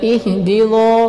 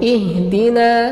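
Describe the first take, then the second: First: The word is pronounced thick and heavy. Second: The word is pronounced thin, without heaviness. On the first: The speaker calls it wrong. "bukan ihdino" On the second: The speaker calls it right. "latihan tarqiq"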